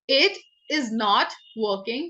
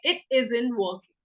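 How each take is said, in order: First: The words is and not are said separately. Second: Is and not are joined into isn't.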